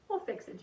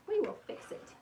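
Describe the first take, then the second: First: Said in the usual way. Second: Higher, each word spelled out: "We will fix it"; high, determined promise to the crooked wreath; emphatic reassurance. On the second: Real, not acted. Repeats reassurance more emphatically.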